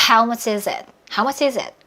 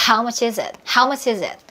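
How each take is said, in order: The two takes are said the same way.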